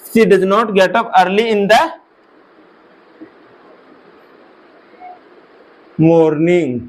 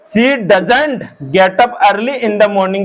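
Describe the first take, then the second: First: 'Does not' is said as two full words. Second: 'Does not' is contracted into one short word.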